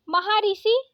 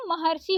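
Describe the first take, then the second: First: महर्षि said as maha-risi; wrong split रि. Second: महर्षि said as mahar-si; correct joined र्षि. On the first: Teacher reading the misspelling, महर्षि as maharisi. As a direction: separate ri in महर्षि, rising at the end. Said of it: "ऐसे लिखा है ना". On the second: Teacher correcting it, महर्षि as maharsi. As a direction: close the r onto si in महर्षि. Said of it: "महर्षि होता है". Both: Shown as a demonstration.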